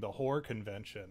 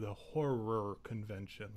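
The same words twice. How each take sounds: First: Horror is slurred into one short syllable. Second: Horror is clearly said with two syllables. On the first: It sounds like a different, improper word. The speaker calls it wrong. "I'm a lazy speaker, so there are certain words that just don't roll right" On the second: It clearly means scary movies. The speaker calls it right. "I have to then enunciate"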